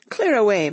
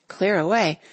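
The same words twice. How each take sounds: First: "Clear away" called louder as a cheerful command; hearty boss calling "Clear away"; loud jolly order. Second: Said in the usual way. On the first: A narrator's reading. Fezziwig orders the room cleared, loud and hearty. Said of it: "cried old Fezziwig". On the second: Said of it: "narrator echoes".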